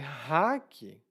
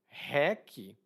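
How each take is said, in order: First: The word starts with an r sound. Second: The word starts with an h sound.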